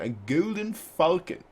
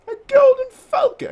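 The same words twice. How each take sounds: First: Said in the usual way. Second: Shrieked high and loud announcement; excited shout. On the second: Acted. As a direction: shout it out like a herald spotting the bird. Announcing the falcon.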